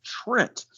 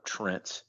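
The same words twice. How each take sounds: First: Trent rising sharply at the end; question-mark Trent. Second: Said in the usual way. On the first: Shown as a demonstration. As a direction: make Trent sound like a question. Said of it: "have to pronounce it Trent". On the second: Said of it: "still got the question mark".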